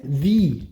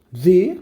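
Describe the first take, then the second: First: "the" with a long ee vowel; "the" as "thee". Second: Said in the usual way. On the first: Shown as a demonstration. Teacher shows the form used in place of an, "the" pronounced "thee". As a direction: say "the" as "thee", not "thuh". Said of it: "você vai fazer a pronúncia". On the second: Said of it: "Lá na hora de escrever fica assim".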